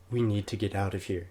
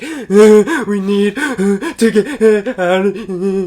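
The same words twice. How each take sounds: First: Softer, small voice after a gasp; imitated breathless plea. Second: High, loud, drawn-out hammed-up wailing; sobbing little kid. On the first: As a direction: squeeze the words out quietly, as if spent from crying. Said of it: "that's what I sounded". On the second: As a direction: imitate a child gasping words out between sobs. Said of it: "I sound like a little kid".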